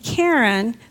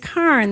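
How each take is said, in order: First: The word is said with two syllables. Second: The word is said with one syllable. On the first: The speaker calls it wrong. "it looks like it should be Karen" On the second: The speaker calls it right. "but it's Karn. That's how it's pronounced"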